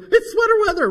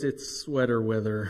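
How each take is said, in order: First: The voice sounds cheerful and excited. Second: The voice sounds flat and glum. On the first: The speaker looks forward to the cold weather. "She loves the cold, and she's so excited. She goes" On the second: The speaker dreads the cold weather. "And the way I say it is"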